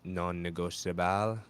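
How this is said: It is pronounced with Spanish sounds.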